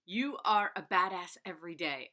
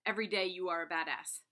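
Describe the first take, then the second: First: "are" hit louder, falling; stress on ARE. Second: "every" leads, stressed. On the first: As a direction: lean on "are" in "You are a badass". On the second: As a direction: open with a firm "every day". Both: Shown as a demonstration. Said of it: "And I was gonna say".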